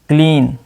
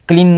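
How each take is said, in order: First: The vowel is long and stretched. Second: The vowel is short and clipped. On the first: The speaker calls it right. "ई ए की sound बड़ी ई pronounce करेंगे" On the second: The speaker calls it wrong. "क्लीन नहीं"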